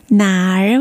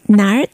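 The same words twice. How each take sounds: First: なー drawn out as two sounds, "na-er"; なー with the "er" still separate; unmerged erhua. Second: なー run together as one quick "nar"; なー said quickly as "nar"; merged erhua. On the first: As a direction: say なー slowly as na, then er. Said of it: "前の文字と一緒に早く発音し". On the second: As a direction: blend なー into a single r-coloured syllable. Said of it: "なーとなります". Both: Shown as a demonstration.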